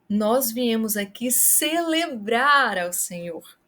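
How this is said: The word celebrar is stressed. It highlights the act. "Se você quer chamar a atenção para o ato"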